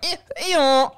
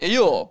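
First: The name is split into two parts like a bray. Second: The name is said as one smooth word. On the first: It imitates the donkey's noise. The speaker calls it wrong. "But you're like" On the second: It is just the character's name. The speaker calls it right. "I think it's one word"

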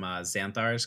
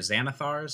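First: The name is said with two syllables. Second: The name is said with three syllables. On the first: The speaker calls it wrong. "I've been pronouncing that wrong forever" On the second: The speaker calls it right. "or Xanathar's"

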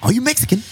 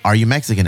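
First: It is said in an attempted Irish accent. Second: It is said in a plain American accent.

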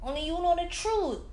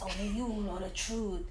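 First: It is said plainly, as a personal remark. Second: It is said in a slick advertisement-style voice. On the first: Someone is simply telling you about yourself. "In the beginning, it doesn't sound like it. It's just you telling you about yourself" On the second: It sounds like a sales pitch closing a show. "at the end, it sounds like, ... That's an infomercial"

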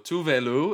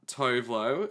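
First: The name is said with a Swedish pronunciation. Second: The name is said with an American pronunciation. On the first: "if we're speaking in her native tongue of Swedish" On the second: "if we're speaking in American"

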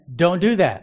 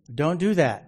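First: It is said a little louder. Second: It is said at normal, softer volume.

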